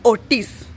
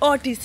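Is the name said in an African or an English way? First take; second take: African; English. First: The name is said with an African accent. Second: The name is said with an English accent. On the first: The speaker calls it right. "So for you to say in an African way" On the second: The speaker calls it wrong. "it's not African. It becomes English"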